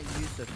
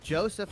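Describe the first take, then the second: First: The name begins with a Y sound. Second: The name begins with a J sound. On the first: The speaker calls it wrong. "and not Yusuf" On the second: The speaker calls it right. "it is Joseph"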